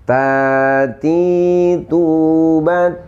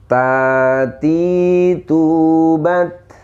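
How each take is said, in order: The two takes are said the same way.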